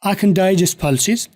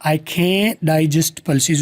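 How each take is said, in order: First: CAN shrunk to 'khn' after a short I; higher pitched, CAN with almost no vowel; short positive can. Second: CAN'T with a long drawn 'kaen', no t; lengthened can't. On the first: Teacher models the positive sentence, short can. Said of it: "लंबा नहीं बोल रहा". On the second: Teacher contrasts the negative for students, lengthened can't. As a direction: stretch the vowel of CAN'T, drop the t. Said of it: "सिर्फ लंबा किया है". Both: Shown as a demonstration.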